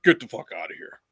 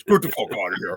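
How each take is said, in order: First: Said in the usual way. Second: Gruff mock impression of a friend; Quinn voice. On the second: Mimicking Quinn dismissing his retirement. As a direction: do your buddy Quinn telling you to quit it. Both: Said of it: "I'm gonna do my Quinn voice".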